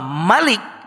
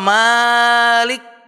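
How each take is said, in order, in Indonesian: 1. Vokal setelah m itu pendek. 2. Vokal setelah m itu panjang. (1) "mimnya pendek" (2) "Malik yang panjang"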